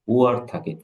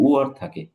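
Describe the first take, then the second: The two takes are said the same way.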